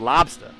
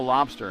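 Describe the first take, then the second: First: It is said in a Boston accent, r dropped. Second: It is said in a standard, general accent. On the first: "You have a lobster" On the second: "You don't have a lobster in Boston"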